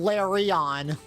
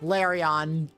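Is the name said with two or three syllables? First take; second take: three; three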